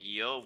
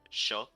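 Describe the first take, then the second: First: The word begins with a 'y' sound. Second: The word begins with a 'sh' sound. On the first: "instead of like yo" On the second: "we we say like sho"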